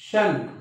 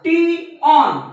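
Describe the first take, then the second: First: The ending sounds like 'shun' in one syllable. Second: The ending sounds like 'tee-on' in two syllables. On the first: The speaker calls it right. "हा शन आहे" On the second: The speaker calls it wrong. "बरेचसे विद्यार्थी याचा उच्चार किंवा याचं वाचन टी ऑन करतात"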